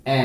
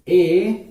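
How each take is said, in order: First: ए as a brief "eh"; ए clipped to "eh", the right sound for E; short e sound. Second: ए drawn out as "ay"; ए as a long "ay", the wrong sound for E. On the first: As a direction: say ए short, like the start of elephant. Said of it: "तो ई से क्या होता है". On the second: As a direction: say ए like the letter name A. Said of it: "नहीं होता इसका pronunciation.". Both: Shown as a demonstration.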